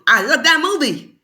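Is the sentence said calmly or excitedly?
excitedly. It is said excitedly, like an exclamation.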